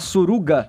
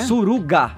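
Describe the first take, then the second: First: The word is said casually within the sentence. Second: The word is said slowly with changed intonation.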